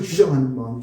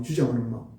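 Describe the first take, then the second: First: Said in the usual way. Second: 주장하는 said again lower and softer, with a falling close; quiet repeated emphasis. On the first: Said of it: "명령해서 자기 것을 주장하는 마음". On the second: Shown as a demonstration. Pastor lets the key phrase sink in, quietly stressing 주장하는.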